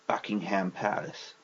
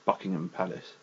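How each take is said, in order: First: The H in the middle is pronounced. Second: The H in the middle is silent. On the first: The speaker calls it wrong. "It's not Buckingham Palace" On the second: The speaker calls it right. "it's Buckingham Palace"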